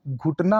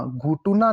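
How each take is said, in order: First: Said in the usual way. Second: घुटुना with an extra u; three syllables in घुटुना, टु in the middle; mispronounced घुटना. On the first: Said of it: "घुटना होता है". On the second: Shown as a demonstration. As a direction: say घुटुना as "ghu-tu-naa". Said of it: "घुटुना नहीं होता".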